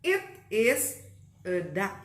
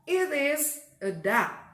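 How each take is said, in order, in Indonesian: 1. Setiap kata diucapkan terpisah dan jelas. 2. Kata-katanya menyambung dengan lancar.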